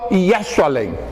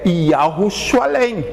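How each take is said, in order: First: The name's opening syllables are shortened. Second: The name's opening syllables are said in full. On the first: This is how they say the name today. The speaker calls it wrong. "eles comem o início" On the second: This is the original name of the city. The speaker calls it right. "o nome correto da cidade é"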